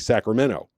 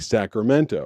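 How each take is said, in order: First: The T sound in the word is left out. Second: The T sound in the word is clearly pronounced. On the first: "They don't put the T in it at all" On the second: "people in uh, Sacramento don't say Sacramento"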